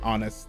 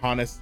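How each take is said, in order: First: The word starts with a vowel, no H sound. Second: The word starts with an audible H sound. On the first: The speaker calls it right. "you don't say the H. You say you say honest" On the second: The speaker calls it wrong. "me saying honest doesn't that doesn't that's not right"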